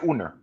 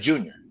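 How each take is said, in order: First: It begins with a Spanish H sound. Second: It begins with an English J sound. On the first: "Why we say Jaime Jaquez Uner?" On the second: "we then we say Junior"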